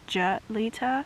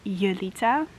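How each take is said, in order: First: The name is said with an English-style pronunciation. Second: The name is said with a Dutch-style pronunciation. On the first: This is how many English speakers assume it is said. The speaker calls it wrong. "For a lot of English American people, ... they think it's Julita" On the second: This is how the name is really said. The speaker calls it right. "but it's actually Julita"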